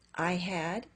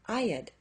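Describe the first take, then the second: First: Both words are said in full. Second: The words are contracted into one syllable.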